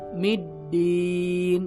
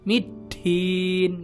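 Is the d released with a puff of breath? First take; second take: no; yes. First: The d is released with no puff of breath. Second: The d is released with a puff of breath. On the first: The speaker calls it right. "Jadi nafasnya nggak keluar" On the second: The speaker calls it wrong. "Kalau keluar gimana?"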